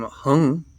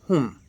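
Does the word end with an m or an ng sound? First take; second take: ng; m. First: The word ends with open lips, an ng sound. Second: The word ends with closed lips, an m sound. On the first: The speaker calls it wrong. "you don't have to close your lips" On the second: The speaker calls it right. "it's hum. The lips close to uh, to finish the, the syllable"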